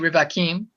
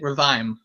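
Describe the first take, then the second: First: The word is said with three syllables. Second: The word is said with two syllables. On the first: The speaker calls it wrong. "You don't need to say Rivakim" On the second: The speaker calls it right. "you just say Revaim, two syllables"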